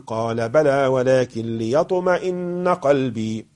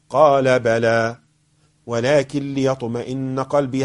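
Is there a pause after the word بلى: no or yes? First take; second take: no; yes. First: The words run on without a pause after بلى. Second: There is a pause after the word بلى. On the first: The answer and what follows form one unit. "ولا أقول" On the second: The answer is complete before what follows. "هل هذا الوقف صحيح؟"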